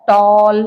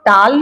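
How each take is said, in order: First: The vowel is a rounded 'aw' sound. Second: The vowel is an open 'ah' sound. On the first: The speaker calls it right. "ए के बाद में double L आया तो ओ" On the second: The speaker calls it wrong. "इसको टाल नहीं बोल सकते हैं"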